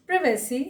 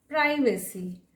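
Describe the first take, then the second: First: "प्राइवेसी" as priv-uh-see; short i in the start of "प्राइवेसी"; alternative pronunciation. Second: "प्राइवेसी" as prye-vuh-see; alternative pronunciation. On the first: Teacher showing one accepted "प्राइवेसी", said priv-uh-see. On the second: Teacher showing the other accepted "प्राइवेसी", said prye-vuh-see. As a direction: eye diphthong in "प्राइवेसी". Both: Shown as a demonstration. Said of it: "दोनों ही आप बोल सकते".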